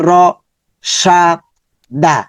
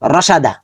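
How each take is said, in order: First: Each syllable is said apart with pauses. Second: The syllables run together without any pauses. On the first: "প্রথমে বেঙ্গি পুরে" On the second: "এখন আমরা একত্রে বলে ফেলি"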